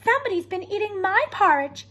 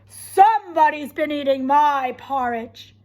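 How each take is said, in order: First: The voice is sweet and low. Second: The voice is loud, deep and growly. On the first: "she exclaimed in her sweet, low voice" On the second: "he said in his loud, growly voice"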